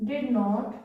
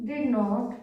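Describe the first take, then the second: No difference in how they are said.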